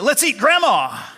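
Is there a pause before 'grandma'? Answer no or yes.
no. The words run on with no pause. The listener is the thing to be eaten.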